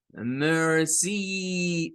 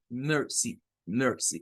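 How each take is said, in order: First: «mercy» con la I final muy larga; I alargada errónea. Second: «mercy» con la I final breve, tono descendente; I corta. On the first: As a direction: estira la última vocal de «mercy»: «mercíii». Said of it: "Recuerden que no es de decir mercy". («mercy» mal dicho, con sílaba final alargada) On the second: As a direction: corta la última vocal de «mercy» y baja el tono. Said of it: "Este es un sonido más corto". («mercy» con sílaba final corta y más grave) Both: Shown as a demonstration.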